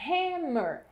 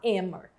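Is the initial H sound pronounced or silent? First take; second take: pronounced; silent. First: The word begins with an audible H sound. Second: The word begins with a vowel, no H sound. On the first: The speaker calls it right. "você falou, ó, hammer" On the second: The speaker calls it wrong. "Você não falou só hammer"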